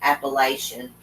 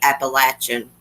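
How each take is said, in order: First: The word is said in the outsider way. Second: The word is said in the local regional way. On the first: This is how people from elsewhere say it. The speaker calls it wrong. "people away from here, they say Appalachian. That's not the way we say it" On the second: This is how people from the region say it. The speaker calls it right. "We say Appalachian Mountains"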